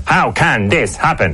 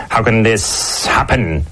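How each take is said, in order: First: Slow, how hit higher; stress on how. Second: Slow, can drawn out; stress on can. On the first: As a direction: punch the word how. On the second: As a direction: drag out the word can. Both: Shown as a demonstration. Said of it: "put the emphasis on a different word".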